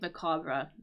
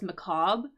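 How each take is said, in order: First: The word ends with an audible R sound. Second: The word ends without a final R sound. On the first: "a little bit more common for the pronunciation" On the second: "just without the the R Es as well"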